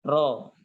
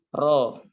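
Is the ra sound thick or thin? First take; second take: thick; thick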